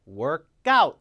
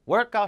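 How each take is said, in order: First: The stress falls on the second part, out. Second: The stress falls on the first part, work. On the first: It is the verb, to exercise. The speaker calls it right. "뒤에다 강세를 주셔야 돼요. workout 이렇게 발음해요" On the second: It is the noun, a workout. The speaker calls it wrong. "앞에 강세 주면 큰일 납니다. 품사가 바뀌어요. workout 하면 안 돼요. 명사예요"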